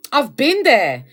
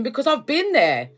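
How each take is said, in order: First: Been hit harder and louder; stress on been. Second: Said in the usual way. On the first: Shown as a demonstration. To viewers, repeating she's been there, stressing been. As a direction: lean on been so they believe you.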